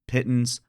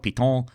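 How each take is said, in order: First: The word is pronounced the English way. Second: The word is pronounced the French way. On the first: "are going to pronounce it pitons" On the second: "Sorry if that's annoyingly French for you"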